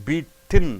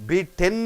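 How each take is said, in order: No difference in how they are said.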